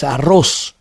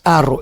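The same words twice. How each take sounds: First: "arroz" stressed on RROZ; stress on last syllable. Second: "arro" wrongly stressed on A; stress on first syllable. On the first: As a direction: land long on the RROZ of "arroz". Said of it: "es arroz". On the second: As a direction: hit the opening A of "arro". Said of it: "No es arro". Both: Shown as a demonstration.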